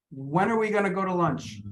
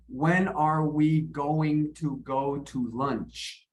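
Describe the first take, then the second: First: "When are we gonna go to lunch" run together, weak words squashed; reduced connected speech. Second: "When are we going to go to lunch" very slow, word by word; full careful form. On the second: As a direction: give every word in "going to go to" its full sound. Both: Shown as a demonstration. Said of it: "I'm reducing this".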